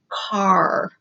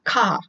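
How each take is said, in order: First: The final R sound is pronounced. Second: The final R sound is dropped. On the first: The speaker calls it right. "pronounce that R sound way back here in the back of the throat" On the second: The speaker calls it wrong. "it is not ka"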